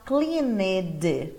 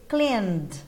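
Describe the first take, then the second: First: The ending is an extra syllable with a vowel. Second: The ending is only a d sound. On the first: The speaker calls it wrong. "dá uma vontade de falar cleaned" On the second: The speaker calls it right. "só acrescenta o D"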